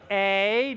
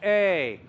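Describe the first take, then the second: First: The vowel is wide, said with a smile. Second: The vowel is open, said with dropped jaw. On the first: The speaker calls it wrong. "the A becomes" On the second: The speaker calls it right. "becomes A"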